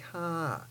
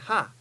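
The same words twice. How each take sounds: First: The syllable is relaxed with a gentle fall. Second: The syllable is short and punched hard. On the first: The speaker calls it right. "a nice, easy ha, and with a nice falling tone and a nice forward vowel" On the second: The speaker calls it wrong. "it's the wrong vowel because it's short, and number two, it just punches it too much"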